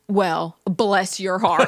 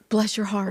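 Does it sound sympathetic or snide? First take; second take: snide; sympathetic. First: It sounds snide and mocking. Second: It sounds warm and sympathetic.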